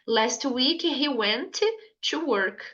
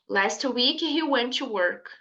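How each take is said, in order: First: Both T sounds are said, with a break between. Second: One T sound links the two words smoothly. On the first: The speaker calls it wrong. "vai ficar muito assim pausado, não vai ficar uma coisa natural" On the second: The speaker calls it right. "Você vai falar só um T"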